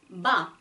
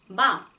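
First: The syllable is released with little breath. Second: The syllable is released with little breath.

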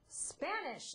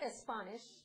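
First: The word starts directly with the s sound. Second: A short vowel is added before the s. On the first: The speaker calls it right. "say Spanish" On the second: The speaker calls it wrong. "not Spanish"

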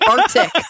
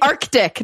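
First: The c sound before the t is dropped. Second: The c sound before the t is pronounced. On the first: The speaker calls it wrong. "not the Arctic" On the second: The speaker calls it right. "it's the Arctic"

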